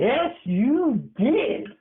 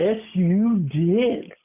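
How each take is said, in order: First: Slow, higher sing-song taunt; teasing sing-song. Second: Teasing sing-song. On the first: Grandson taunting grandma who denies it, slow sing-song. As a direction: drag it out to tease her. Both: Real, not acted. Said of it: "teasing insistence, drawn out".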